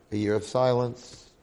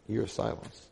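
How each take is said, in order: First: Said in the usual way. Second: Year repeated much softer, stressed on year; quiet repeat leaning on "year"; soft echo. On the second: Shown as a demonstration. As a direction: let "year" sink into a hushed aside.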